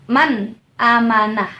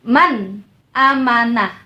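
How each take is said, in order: Both takes have the same delivery.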